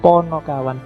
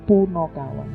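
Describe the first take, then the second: First: The first vowel is an 'o' sound. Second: The first vowel is a 'u' sound. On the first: The speaker calls it right. "sebenarnya yang pas ponokawan" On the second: The speaker calls it wrong. "Kalau orang sering salah menyebutnya punokawan"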